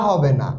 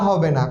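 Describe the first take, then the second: No difference in how they are said.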